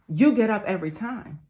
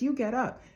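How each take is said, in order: First: It is said louder. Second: It is said at normal volume.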